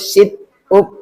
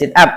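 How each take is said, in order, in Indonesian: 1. Diucapkan dengan bunyi sesuai ejaan bahasa Indonesia. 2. Diucapkan dengan pelafalan bahasa Inggris. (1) "Kalau dibaca dengan bahasa Indonesia itu sit up" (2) "Tapi ini bahasa Inggris, sit up"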